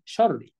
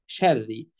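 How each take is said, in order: First: شري as dark "sharri"; heavy ر. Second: شري as thin "sherri"; light ر. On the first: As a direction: thicken the r in شري with a back a. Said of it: "فما حدش يقول إيه". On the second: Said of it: "نقولها إيه". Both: Shown as a demonstration.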